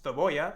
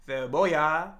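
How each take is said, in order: First: The pitch stays level at the end. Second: The pitch rises at the end. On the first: "just cebolla" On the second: "they would say it more like cebolla, like that"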